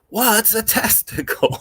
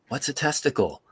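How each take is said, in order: First: It is shouted at full volume. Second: It is said somewhat louder.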